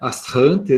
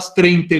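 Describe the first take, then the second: First: The word is said with a French-style pronunciation. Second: The word is said with a Brazilian-style pronunciation. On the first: This is how the original language pronounces it. "Que parece que se pronuncia" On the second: This is how everyone says it in daily practice. "a forma abrasileirada da palavra. Todo mundo já fala astrente mesmo"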